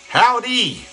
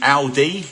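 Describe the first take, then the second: First: It is said in an American accent. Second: It is said in an English accent.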